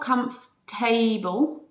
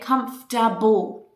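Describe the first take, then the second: First: The ending is a full, strong 'able'. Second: The ending is a weak, reduced 'ble'. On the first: The speaker calls it wrong. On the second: The speaker calls it right.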